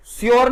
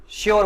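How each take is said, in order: First: श्योर begun with s, "syor"; wrong s sound. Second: श्योर begun with sh, "shor"; correct sh sound. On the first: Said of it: "श्योर नहीं बोलेंगे". (श्योर को गलत ढंग से 'स्योर' बोलें) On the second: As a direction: say श्योर with a hushing sh. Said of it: "श्योर बोलेंगे". (श्योर को 'श' से बोलें) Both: Shown as a demonstration.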